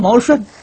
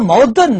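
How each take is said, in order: First: The second syllable is pronounced shun. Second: The second syllable is pronounced dun. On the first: Ancient speakers would understand it, but modern listeners would not. The speaker calls it right. "真正正确的音，那个不念顿，念顺啊。我念毛顺" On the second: Modern listeners understand it, but ancient speakers would not. The speaker calls it wrong. "那念矛盾呢，今人懂"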